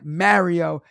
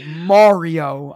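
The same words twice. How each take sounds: First: Loud "Mario" with the a of "marry"; stubborn own pronunciation. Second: Loud "Mario" as MAR-ee-oh, open "ah"; imitated correction. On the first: Retold or imitated. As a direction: answer back "Mario" as MARE-ee-oh. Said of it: "I'm like". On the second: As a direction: hammer "Mario" with a broad "ah" vowel. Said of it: "He's like".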